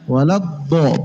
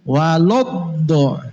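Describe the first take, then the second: First: The syllable before the heavy consonant stays thin. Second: The syllable before the heavy consonant sounds thick. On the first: The speaker calls it right. "Wala, tetaplah tipis" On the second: The speaker calls it wrong. "Kasarnya gini"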